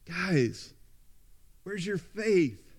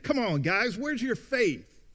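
First: It is said in a warm, affectionate tone. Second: It is said in a rebuking, scolding tone.

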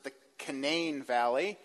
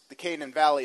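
First: It is said in the local West Virginia way. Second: It is said in the general, non-local way. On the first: The speaker calls it right. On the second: The speaker calls it wrong.

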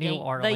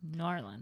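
First: The name is said the Yankee, outsider way. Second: The name is said the local, non-Yankee way.

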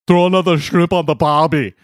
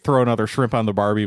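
First: It is said in an Austrian accent. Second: It is said in an Australian accent. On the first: This is the accent that came out by accident. "it came out Arnold Schwarzenegger Austrian" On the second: This is the accent that was intended. "I tried to do an Australian accent"

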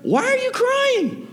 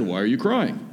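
First: The pitch goes up high. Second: The pitch does not go up.

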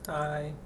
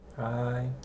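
First: It is said with more enthusiasm. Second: It is said with little enthusiasm.

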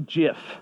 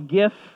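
First: The word begins with a soft j sound. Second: The word begins with a hard g sound. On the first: "I lean towards the peanut butter pronunciation of GIF" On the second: "Some of you may call it a GIF"

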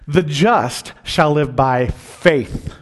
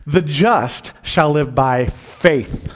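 First: The stress is on the word faith. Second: The stress is on the word faith.

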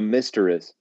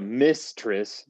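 First: The word begins with the sound of 'mister'. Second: The word begins with the sound of 'miss'. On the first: It means a male version of a mistress. "You put the mister and mistress" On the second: It means a woman who is a lover. "That's like a girl"

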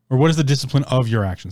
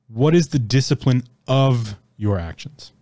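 First: It is said at normal speed. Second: It is said slowly.

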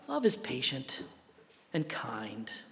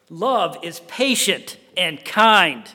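First: It is said softly and sweetly. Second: It is said sharply and reproachfully. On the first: A pretty, decorative sentiment. The speaker calls it wrong. "It's not" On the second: A stinging rebuke of the listeners. The speaker calls it right. "No, it's this"

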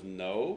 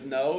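First: It is said with a lot of attitude. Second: It is said plainly, without attitude.

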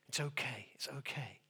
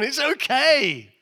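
First: The voice sounds gentle and soothing. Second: The voice sounds brisk and firm. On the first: Frightened people are being reassured. "when Jesus first came in the room and they were so filled with fear, it was a kind of peace be with you" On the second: Overexcited people are being told to calm down. "when they realize who it is, hey, calm down"

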